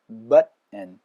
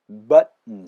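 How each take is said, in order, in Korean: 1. t는 목에서 막혔다가 비음으로 넘어가요. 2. t는 목에서 막혔다가 비음으로 넘어가요.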